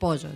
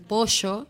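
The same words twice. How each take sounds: First: It is said in a Chaco accent. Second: It is said in a Buenos Aires accent.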